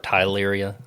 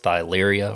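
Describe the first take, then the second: First: The word begins with a plain t sound. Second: The word begins with a th sound. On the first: This is how other people say it. "I think I've heard others say it like tyleria" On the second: This is the speaker's own way of saying it. "I say thyleria because it's spelled with a T H"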